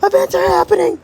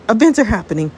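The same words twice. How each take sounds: First: Very high frantic cry; high-pitched escalating panic; panicked squeal. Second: First, contained note of alarm; mildly agitated warning; rising alarm. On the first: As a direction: squeal it in mounting alarm. Panic as time shifts, escalated. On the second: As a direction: announce it urgently, slightly raised. Panic as time shifts. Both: Acted.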